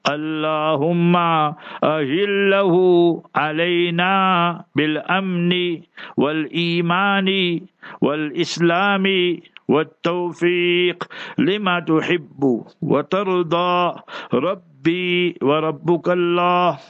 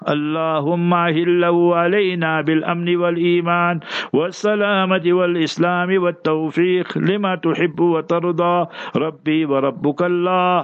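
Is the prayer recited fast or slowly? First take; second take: slowly; fast. First: It is recited slowly. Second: It is recited fast.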